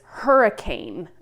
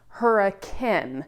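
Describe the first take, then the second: First: The word has its usual standard pronunciation. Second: The word has the local Utah pronunciation. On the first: "a sign for a city that says Hurricane" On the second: "in Utah, it's actually pronounced Hurricane"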